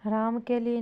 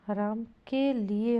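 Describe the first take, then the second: First: Said in the usual way. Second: Ram के लिए slowly, word by word; separated words. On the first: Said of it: "नहीं होगा". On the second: Shown as a demonstration. Teacher giving the accepted form, slow and separated. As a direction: set के and लिए apart. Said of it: "होगा".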